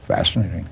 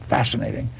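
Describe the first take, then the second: First: It is said coolly, with scientific curiosity. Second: It is said with dramatic emotion.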